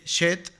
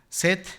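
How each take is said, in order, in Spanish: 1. El nombre empieza con un sonido sh. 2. El nombre empieza con un sonido s. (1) "no he dicho una mala palabra" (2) "voy a decirlo así"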